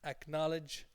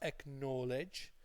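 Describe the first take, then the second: First: The middle syllable sounds like 'col' in 'college'. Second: The middle syllable sounds like the word 'know'. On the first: The speaker calls it right. "it's acknowledge like college" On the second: The speaker calls it wrong. "they think it's acknowledge. But it's not acknowledge"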